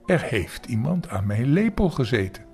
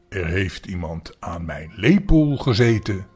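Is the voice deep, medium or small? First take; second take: medium; deep. First: The voice is moderately deep. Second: The voice is big and very deep. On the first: The middle-sized character is speaking. "met middelmatige zware stem" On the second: The largest character is speaking. "met grote, zware stem"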